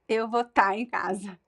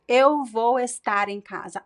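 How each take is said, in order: First: The verb is shortened to one syllable. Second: The verb is said with both syllables.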